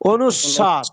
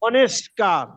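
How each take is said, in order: First: The word has a 'u' vowel and no 'k'. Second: The word has an 'e' vowel and a 'k' sound. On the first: The speaker calls it right. "অনুস্কার হবে অনুস্বার" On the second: The speaker calls it wrong. "আমরা বলি অনেস্কার"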